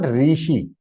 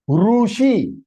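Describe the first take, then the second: First: The first syllable sounds like 'ri'. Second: The first syllable sounds like 'ru'. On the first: This is the Hindi way of saying it. The speaker calls it wrong. "It is not rishi" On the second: This is the Sanskrit way of saying it. The speaker calls it right. "Short is rutu, rushi"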